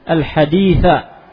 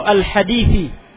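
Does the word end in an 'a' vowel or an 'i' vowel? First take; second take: a; i. First: The word ends with an 'a' vowel. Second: The word ends with an 'i' vowel. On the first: Complete the rest of the hadith yourself. "Bisa dibaca al-haditha" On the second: And so on, to the end of the hadith. "Bisa jadi dibaca al-hadithi"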